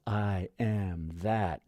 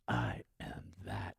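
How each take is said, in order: First: Slow affirmation. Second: Slow, breathy whispered affirmation. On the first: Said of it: "say it with the awareness of". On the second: Teacher voicing the inner affirmation, whispered. Mantra awareness spoken inwardly. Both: Shown as a demonstration.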